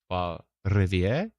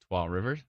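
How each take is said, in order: First: The name is said with a French accent. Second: The name is said with an English accent.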